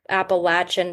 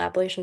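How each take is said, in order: First: It is said with the southern pronunciation. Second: It is said with the northern pronunciation.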